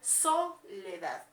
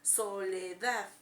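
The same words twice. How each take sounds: First: The stress is on the first syllable. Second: The stress is on the last syllable. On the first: The speaker calls it wrong. "mi sílaba tónica donde lleva la pronunciación es en so" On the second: The speaker calls it right. "si creemos que entonces es en la A"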